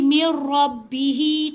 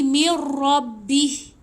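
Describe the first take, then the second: First: The final syllable ends with a lengthened vowel. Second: The final syllable ends cut short without vowel. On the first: The speaker calls it wrong. "Tapi kita tak boleh berhenti mir rabbihi. Tak boleh" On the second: The speaker calls it right. "Kita kena berhenti mir rabbih. Ah, hi ni tak panjang"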